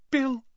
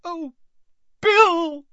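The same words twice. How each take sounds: First: High, contained gasp of a name; whispered. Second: Very high wail bursting out loud; anguished cry. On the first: Mother seeing her injured son, in a shocked whisper. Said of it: "whispered Missus Weasley". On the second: Mother seeing her son's mangled face, crying out in anguish. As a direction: start small, then cry out the name. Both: A narrator's reading.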